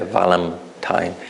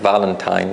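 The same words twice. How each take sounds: First: The middle consonant sounds like an m. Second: The middle consonant is a clear n sound. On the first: "I would say Valentine" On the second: "instead of saying Valentine"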